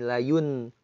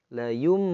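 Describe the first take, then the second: First: The syllable ends with an n sound. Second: The syllable ends with an m sound. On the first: The speaker calls it wrong. "Itu salah" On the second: The speaker calls it right. "yum bukan layun"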